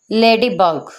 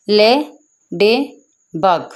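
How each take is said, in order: First: Said in the usual way. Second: लेडीबग in three separate beats, "le", "dee", "bug"; split into syllables. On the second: Shown as a demonstration. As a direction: say लेडीबग slowly, pausing after each syllable. (लेडीबग को तीन हिस्सों में तोड़कर, रुक-रुककर) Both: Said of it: "लेडीबग में three syllables होते हैं".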